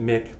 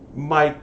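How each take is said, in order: First: The vowel is short, rhyming with kick. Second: The vowel is long, rhyming with bike. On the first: "I always pronounce it Mick because I'm contrary" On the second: "It's Mike as in microphone"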